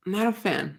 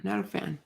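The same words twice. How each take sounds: First: Said in the usual way. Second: Softer repeat, letting "not a fan" fade out; trailing off softly. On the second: Real, not acted. Echoing his own verdict on patronizing podcasters, softly trailing. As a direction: say "not a fan" again, much softer, as an afterthought. Repeats phrase, fades second time.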